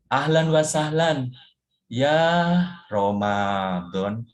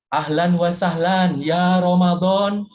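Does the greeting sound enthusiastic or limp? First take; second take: limp; enthusiastic. First: It is said in a weak, limp, negative tone. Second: It is said in a lively, positive tone. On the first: Ramadan is welcomed reluctantly. The speaker calls it wrong. "Yang kedua negatif. Jadi, begitu negatif rasanya lemes gitu" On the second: Ramadan is welcomed with eagerness. The speaker calls it right. "Yang pertama positif"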